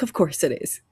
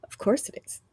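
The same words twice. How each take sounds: First: Said in the usual way. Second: Whispered. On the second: Retold or imitated. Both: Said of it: "And I'm like".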